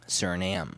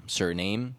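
First: Suriname ending in "nam"; silent final E. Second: Suriname ending like "name"; spelling pronunciation. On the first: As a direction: say Suriname as SUR-ih-nam, falling. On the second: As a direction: say Suriname as SUR-ih-name, questioning rise. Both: Shown as a demonstration. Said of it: "That E is just kinda there".

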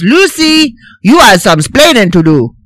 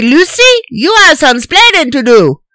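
First: Put-on Cuban-accented splaining; mock Cuban accent; Ricky accent. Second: Mock Cuban accent; Ricky accent. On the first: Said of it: "no, he says". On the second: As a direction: punch splaining in a thick Cuban accent. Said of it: "he doesn't say".

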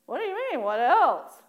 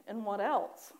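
First: High swoop, louder at the end; indignant disbelief. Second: Said in the usual way. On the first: Retold or imitated. Worshipper answering God's demand for more prayer, high mock indignation. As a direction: throw the question back, mock affronted. Acted indignant reply to God.

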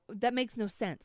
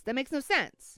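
First: Said in the usual way. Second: "That makes no sense" pitched higher; exasperated, raised "no sense"; insistent protest. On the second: Real, not acted. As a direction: repeat it harder, pushing "no sense". Repeats protest more forcefully.

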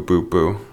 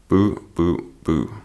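First: Said in the usual way. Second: Lightly voiced backing-singer boos; mock booing. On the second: Shown as a demonstration. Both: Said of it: "the boo, boo, boo".

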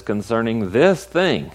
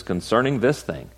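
First: "this" punched louder; emphatic "this", louder; stress on THIS. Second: "this" weighted, falling; mild stress on "this". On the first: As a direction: hit "this" hard in "Concerning this thing". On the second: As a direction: lean on "this" in "Concerning this thing". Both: Shown as a demonstration. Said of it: "So he didn't say concerning everything".

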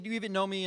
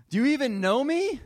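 First: Lightly quoted, no heat; just mention her line in passing; mild retelling of the wife. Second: Loud, high, indignant wife; hurt retort. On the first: Pastor recalling his wife's words to the congregation, mildly. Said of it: "when she's like". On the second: Wife confronting husband about the Mother's Day tickets, loud and high. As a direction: throw the question back in outrage. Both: Retold or imitated.

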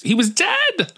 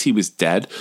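First: Very high, squeaky punchline; hammed-up, high-pitched gossip's shock; mock amazement. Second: Said in the usual way. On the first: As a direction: squeal it like an ironic reveal. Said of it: "unearth my podcast and be like, "Isn't it funny?".

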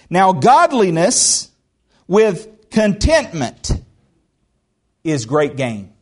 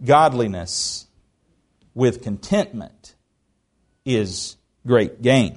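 First: Each phrase set apart with pauses, godliness rising; slow emphatic scripture reading. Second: Lower, softer and slow, letting it sink in; slow quiet repetition. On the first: Preacher reading First Timothy to the church, slow and emphatic. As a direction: read it slowly and pointedly to the congregation. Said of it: "Let me read this to you". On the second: Preacher repeating the verse to his church, softly and slowly. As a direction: say it back gently like a settled truth. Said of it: "verse repeated as closing reflection". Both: Shown as a demonstration.

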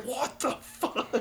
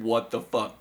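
First: High, slow, drawn-out imitated panic; imitating a friend yelling on a roller coaster; mock scream. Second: Said in the usual way. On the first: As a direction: squeal it like a terrified rider. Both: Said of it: "he just screamed".

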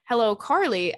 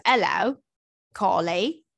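First: Said in the usual way. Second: Greeting in a put-on accent, H dropped from Hello. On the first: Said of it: "Actually, it says". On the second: Shown as a demonstration. Podcast host redoing an email's greeting, put-on accent. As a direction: put on the accent, "Carly" stretched to end in "-ay". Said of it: "Do you do the accent".

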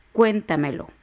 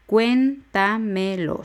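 First: Said in the usual way. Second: "Cuéntamelo" slowly split as cuén-ta-me-lo; syllable by syllable. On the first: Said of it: "Otros casos de palabras sobresdrújulas son". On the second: Shown as a demonstration. Teacher counting four syllables for learners, slow syllable-by-syllable "Cuéntamelo". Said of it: "Son cuatro sílabas".

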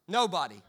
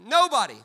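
First: Said in the usual way. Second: Loud punched Nobody; emphatic shout. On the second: Shown as a demonstration. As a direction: hit it hard the second time. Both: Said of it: "repeated for emphasis".

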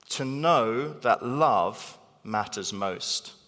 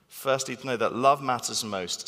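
First: "know" and "love" stressed, slow; stressed slowly. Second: "love" stressed, even pace. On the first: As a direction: lean slowly on "know", let "love" land. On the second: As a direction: repeat it with "love" as the peak. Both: Shown as a demonstration.

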